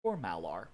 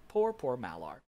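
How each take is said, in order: First: Said in the usual way. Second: A hammed-up sigh of sympathy; mock pity. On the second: A narrator's reading. Narrator feeling sorry for the beast god, mock pity. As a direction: tease the loser with fake sorrow.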